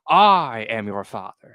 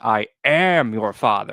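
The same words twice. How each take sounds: First: The stress falls on the word I. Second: The stress falls on the word am. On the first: The speaker calls it wrong. "all the parodies always put the emphasis on the I" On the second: The speaker calls it right. "it's always I am your father in the actual film"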